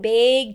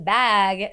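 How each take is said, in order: First: The vowel has a strong regional Midwestern quality. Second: The vowel has a more neutral, standard quality. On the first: "when I changed bag to bag" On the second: "when I changed bag to bag"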